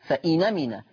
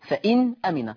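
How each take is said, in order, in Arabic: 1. النون تتصل بالحركة مباشرة، دون همزة. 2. بعد النون توجد همزة. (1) "تحذف الهمزة ثم تنقل حركة الهمزة وهي الفتح إلى النون" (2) "النون ساكنة ثم الهمزة مفتوحة"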